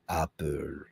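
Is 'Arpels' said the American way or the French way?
French. The name is said with a French pronunciation. "the French say Van Cleef and Arpels"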